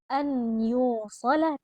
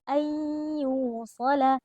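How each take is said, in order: First: The n is said separately before the y. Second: The n merges into a nasal, held y. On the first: The speaker calls it wrong. "bukan an yusalah" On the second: The speaker calls it right. "tapi ayyusalah. ... nunnya ini tenggelam dan melebur ke dalam huruf ya"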